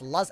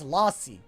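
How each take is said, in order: First: The first vowel is a short 'uh' sound. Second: The first vowel is an open 'ah' sound. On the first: "it's supposed to be pronounced lus" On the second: "when I speak with the, an American accent, it's lassi"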